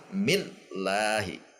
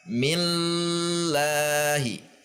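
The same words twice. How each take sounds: First: The L sound is cut off with a jolt. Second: The L sound is held for a long time. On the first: "Atau dihentak" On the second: "Contoh yang ditahan"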